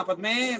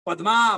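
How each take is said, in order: First: पद्मे with the ए ending, not पद्मा; vocative ending. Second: पद्मा said with a long final आ, loud; पद्मा called out as a name, ending in आ; पद्मा with open आ ending. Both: Retold or imitated. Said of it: "पहले मैंने पद्मे कहा मैंने".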